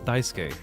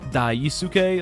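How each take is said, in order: First: The name is said with a Japanese pronunciation. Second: The name is said with an English-style pronunciation. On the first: The speaker calls it right. "his name is not Daisuke, it's Daisuke" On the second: The speaker calls it wrong. "they don't know how to pronounce like daisuke the right way"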